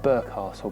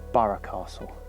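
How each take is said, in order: First: The first word is said as 'burg'. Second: The first word is said as 'borough'. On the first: This is how the speaker would prefer to say it. "I'd like to call it Burgh Castle" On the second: This is how people in the local area say it. "the Norfolk pronunciation is Borough Castle"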